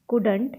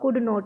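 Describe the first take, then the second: First: It is said as one contracted word. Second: It is said as two separate full words. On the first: "ये कुडंट मैंने short में लिख दिया है" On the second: "कुडंट को आप कुड नॉट भी बोल सकते हो"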